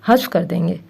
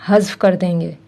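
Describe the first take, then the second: No difference in how they are said.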